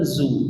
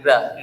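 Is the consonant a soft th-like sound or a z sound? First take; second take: z; th-like. First: The syllable starts with a plain z sound. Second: The syllable starts with a soft th-like sound. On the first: The speaker calls it wrong. "zu itu salah" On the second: The speaker calls it right. "tapi dah"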